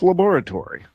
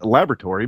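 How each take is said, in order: First: It is said with a British pronunciation. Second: It is said with an American pronunciation. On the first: "my heritage is from England, so I will go with laboratory" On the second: "I'm from America, so I should probably have said laboratory"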